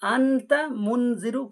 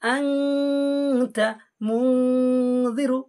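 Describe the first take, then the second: First: The n sound is short, without a held nasal. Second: The n sound is hidden and held through the nose. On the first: The speaker calls it wrong. "আনতা মুনজিরু পড়ব না" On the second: The speaker calls it right. "এখানে একালিফ গুণনা হবে।"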